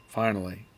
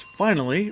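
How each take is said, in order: First: FINALLY kept low and level; other reading of FINALLY. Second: FINALLY with a high pitch swell; one reading of FINALLY. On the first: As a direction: say FINALLY without the lift. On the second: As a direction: lift the word FINALLY up high, stretched. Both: Shown as a demonstration. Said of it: "not sure how to read that".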